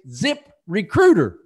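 The name is split into two separate words. The speaker calls it right.

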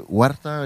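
The name is said with a Spanish pronunciation. "if you have like the ethnic behind it"

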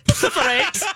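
The word is said in a Scottish accent. "Now say it with a Scottish accent"

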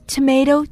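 Tomato is said in the American way. "tomato 的确是美式英语"

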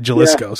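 The name is said with an American English pronunciation. The speaker calls it wrong. "I call it Jaliscos because I'm an ignorant American"

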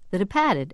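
It is said in a Boston accent.

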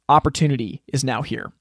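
The ending is split into two words. Opportunity has arrived right now. "or opportunity is now here"

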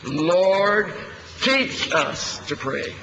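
The word "teach" is stressed. The point is that we need to be taught. "emphasizing the word "teach.""

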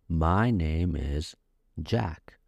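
The voice falls at the end. The speaker calls it right. "At the end of the sentence, your voice goes down"

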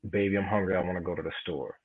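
The line is said in a calm tone. "regular like that"

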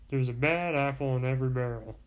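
It is said in a put-on character voice.

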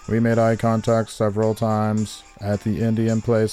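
It is read in a needy, robotic put-on voice.

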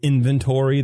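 The word is said in an American accent. "instead of inventory"

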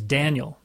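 The name is pronounced the English way. "That's how I pronounce it"

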